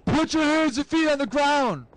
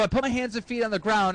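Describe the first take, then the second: First: Police command. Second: Said in the usual way. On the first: Retold or imitated. Cop orders a suspect to the ground, high commanding call. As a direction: call it out like an officer making an arrest. Cop's order acted in story.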